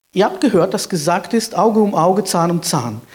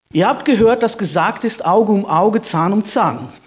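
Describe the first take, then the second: No difference in how they are said.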